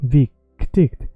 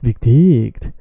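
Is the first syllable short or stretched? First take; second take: stretched; short. First: The first syllable is stretched, pitch falling then rising. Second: The first syllable is short, without the fall-rise. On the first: The speaker calls it right. "you keep the proportion of the first syllable stretched" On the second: The speaker calls it wrong. "is not"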